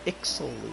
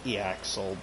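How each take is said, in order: First: The name is said like 'Ixal'. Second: The name is said like 'Eaxel'. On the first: The speaker calls it right. "Ixal is probably the proper pronunciation" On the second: The speaker calls it wrong. "I pronounced it Eaxel"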